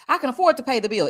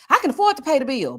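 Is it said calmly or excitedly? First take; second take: calmly; excitedly. First: It is said calmly, ending flatly. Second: It is said excitedly, with raised energy.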